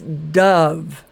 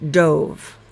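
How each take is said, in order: First: The vowel is a short uh sound. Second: The vowel is a long O sound. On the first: A kind of bird. "this O is making a schwa sound. It sounds like a short U" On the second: Jumped headfirst into the water. "if you're talking about swimming"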